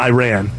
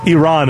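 First: It sounds like the two words 'I ran'. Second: It does not sound like 'I ran'. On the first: It names a song, not the country. The speaker calls it wrong. "it's not Iran. That's a song by Flock of Seagulls" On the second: It names the country. The speaker calls it right. "Iran is the country"

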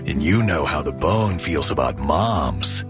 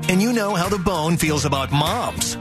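First: It is read with a leering, suggestive tone. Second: It is read in a plain, straightforward tone. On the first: It hints that moms are sexually attractive. The speaker calls it wrong. "Reading it like that. ... like hot moms, right?" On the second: It simply expresses affection for mothers. The speaker calls it right. "Okay, here you go"

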